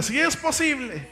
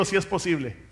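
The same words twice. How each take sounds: First: Higher, with a laugh, repeat it stronger; say it louder. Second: Said in the usual way. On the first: Shown as a demonstration. Preacher urging the congregation to repeat louder, with a laugh. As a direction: lift it up for the congregation. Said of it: "Dígalo más fuerte". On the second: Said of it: "Diga conmigo".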